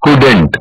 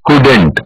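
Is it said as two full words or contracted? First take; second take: contracted; contracted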